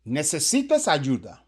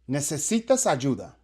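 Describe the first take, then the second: Both takes have the same delivery.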